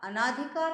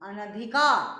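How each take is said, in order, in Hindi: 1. पहले अक्षर के बाद वाला स्वर दीर्घ है। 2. पहले अक्षर के बाद वाला स्वर ह्रस्व है। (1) "अनाधिकार नहीं" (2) "शुद्ध शब्द क्या है"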